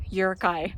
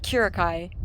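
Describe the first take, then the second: First: Yurikai, opening on a "y" glide and ending in "kai"; corrected pronunciation. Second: Kurikai, the wrong version, opening on a hard K; mistaken pronunciation. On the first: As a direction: say Yurikai with a Y sound at the start, not K. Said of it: "exactly how she pronounced it". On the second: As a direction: say Kurikai with a K sound at the start. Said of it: "Not Kurikai". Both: Shown as a demonstration.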